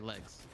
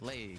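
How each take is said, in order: First: The vowel rhymes with the vowel in eggs. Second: The vowel does not rhyme with eggs. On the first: The speaker calls it right. "So now I say legs" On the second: The speaker calls it wrong. "instead of legs"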